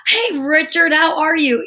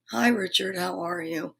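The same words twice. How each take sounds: First: Higher, cheery hello through a smile; smiling greeting. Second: Low, subdued hello, trailing off softly; unsmiling greeting. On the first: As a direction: greet as if delighted to see them. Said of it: "put a smile on your face". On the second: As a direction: greet without a smile, low and quiet. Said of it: "if you speak to someone like this". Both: Shown as a demonstration.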